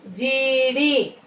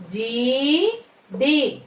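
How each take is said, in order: First: Said in the usual way. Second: "జీడి" split, long rising జీ, then డి; "జీడి" in two separate syllables. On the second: Shown as a demonstration. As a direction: slowly sound out "జీడి" with a gap. Teacher sounds out syllables.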